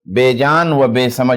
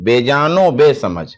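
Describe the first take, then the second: First: A separate 'va' is said between the words. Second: The 'o' joins onto the end of the first word. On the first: The speaker calls it wrong. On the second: The speaker calls it right.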